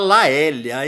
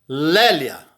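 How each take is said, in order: First: The first syllable is split into a and e. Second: The first syllable has a single open e vowel. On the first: The speaker calls it wrong. "Não me vão falar Laélia, hein? É muito caipira" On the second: The speaker calls it right. "Lé"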